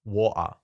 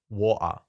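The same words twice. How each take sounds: First: It is said in an English accent. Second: It is said in an English accent.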